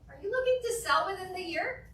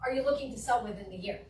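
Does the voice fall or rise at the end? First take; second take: rise; fall. First: The voice rises at the end. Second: The voice falls at the end. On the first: The speaker sounds less authoritative. The speaker calls it wrong. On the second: The speaker sounds authoritative. The speaker calls it right.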